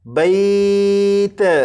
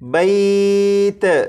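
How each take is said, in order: First: The final t bounces with an echoing release. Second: The same.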